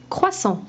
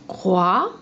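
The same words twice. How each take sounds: First: Said in the usual way. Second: Croissant dit lentement, syllabe par syllabe; syllabes détachées. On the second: Shown as a demonstration. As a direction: appuie sur chaque syllabe de Croissant. (Croissant bien articulé)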